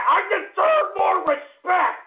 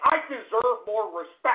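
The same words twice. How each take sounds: First: Outraged shout. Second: Said in the usual way. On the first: Acted. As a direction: yell it, stretching every word.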